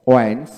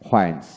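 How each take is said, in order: First: ওয়েন্স with plain w, rising; British pronunciation. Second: হোয়েন্স with h onset, falling; American pronunciation. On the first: Teacher drilling wh words, British pronunciation. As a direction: say ওয়েন্স without any h. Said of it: "British উচ্চারণে". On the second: Teacher drilling wh words, American pronunciation. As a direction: say হোয়েন্স leading with h. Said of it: "এবং আমেরিকানে হ". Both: Shown as a demonstration.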